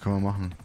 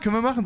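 First: It is said flatly, without enthusiasm. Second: It is said eagerly, with enthusiasm. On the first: The speaker calls it wrong. "bisschen mehr Begeisterung" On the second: The speaker calls it right. "schon besser"

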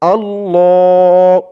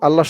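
First: The vowel after the double l is long. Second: The vowel after the double l is short. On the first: The speaker calls it right. "বলতে হবে আল্লাহ" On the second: The speaker calls it wrong. "আল্লাহ বললে কিন্তু আল্লাহ শব্দের উচ্চারণটা শুদ্ধ হয় না"

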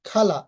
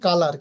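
First: The first consonant has a strong puff of air. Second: The first consonant has no puff of air. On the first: The speaker calls it right. "কিন্তু সঠিক উচ্চারণ কি খালা" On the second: The speaker calls it wrong. "এখানে আমরা উচ্চারণ করে থাকি কালার"

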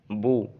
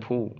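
First: The b is released without a puff of breath. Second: The b is released with a puff of breath. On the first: The speaker calls it right. "seharusnya bu" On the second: The speaker calls it wrong. "terbaca bu"

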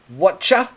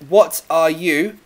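First: The words merge into one word, whatcha. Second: Each word is said fully and separately. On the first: "we can contract to whatcha" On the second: "Now you'll notice that what are you"

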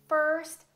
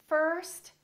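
No difference in how they are said.

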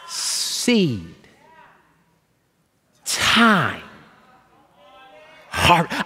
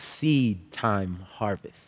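First: The phrase is spoken very slowly, word by word. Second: The phrase is spoken at a fairly quick pace.

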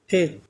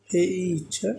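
First: The vowel is a short plain e. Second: The vowel is an ay diphthong. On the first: The speaker calls it wrong. "Not ফেট" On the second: The speaker calls it right.

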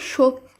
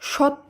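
First: The first vowel is a rounded 'o' sound. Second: The first vowel is an open 'a' sound. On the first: The speaker calls it right. "শব্দটি শুদ্ধ উচ্চারণ হবে সত্য" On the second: The speaker calls it wrong. "সত্য নয়"

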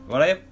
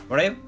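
No difference in how they are said.

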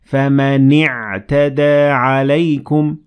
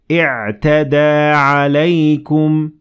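First: The word joins straight onto the preceding sound. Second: The word begins with its own initial vowel. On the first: "I connected the noon to the عين" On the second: "I will have to pronounce the alif completely"

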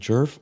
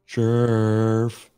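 First: The word is said short and quick. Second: The word is stretched out long.

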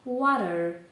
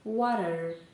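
First: It is said in an American accent. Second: It is said in an American accent.

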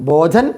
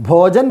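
No difference in how they are said.

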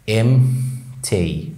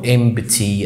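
First: The m runs straight into t, no p. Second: A clear p sound follows the m. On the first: The speaker calls it right. "لكن النطق الصح هو امتي" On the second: The speaker calls it wrong. "اغلبنا بينطق كلمة ديت امبتي"

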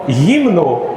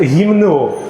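First: The stress is on the first syllable. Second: The stress is on the second syllable. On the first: The speaker calls it right. "слово «гімну»" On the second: The speaker calls it wrong. "може легко перетворитись в «гімну»"

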